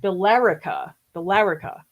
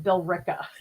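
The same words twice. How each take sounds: First: "Billerica" as bil-LER-i-ka, four syllables; as-written pronunciation. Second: "Billerica" squeezed to bil-RICK-a, three syllables; local Boston pronunciation. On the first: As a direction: sound out "Billerica" as spelled, stressing LER. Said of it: "written as a name, it's". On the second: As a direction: say "Billerica" like a local, dropping the middle vowel. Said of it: "we call it Billerica". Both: Shown as a demonstration.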